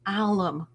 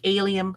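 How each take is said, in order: First: It has no 'ee' sound after the L. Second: It has an 'ee' sound after the L. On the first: The speaker calls it right. "So you don't say the I" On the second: The speaker calls it wrong. "I wasn't even close"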